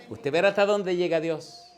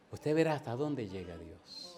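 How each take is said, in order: First: Loud, higher-pitched preaching promise; emphatic proclamation. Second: Softer, subdued preaching promise; hushed repetition. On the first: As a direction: proclaim it boldly to the congregation. Preacher's climactic line, then repeats softly. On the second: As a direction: let it sink in quietly. Same line repeated hushed for effect. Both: Real, not acted.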